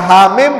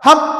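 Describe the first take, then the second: First: Each letter is said separately by its name. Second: The letters are blended into one short word. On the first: The speaker calls it right. "Baca Hamim" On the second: The speaker calls it wrong. "jangan dibaca Ham"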